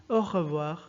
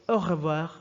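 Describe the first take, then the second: The two takes are said the same way.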